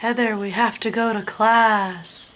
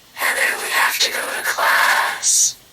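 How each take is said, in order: First: Said in the usual way. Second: Breathless whispered voice effect; whisper filter. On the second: Shown as a demonstration.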